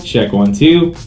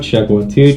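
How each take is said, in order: First: The voice has balanced high and low frequencies. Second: The voice has no high frequencies at all. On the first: "nice and balanced" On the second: "Now you don't hear any high end at all"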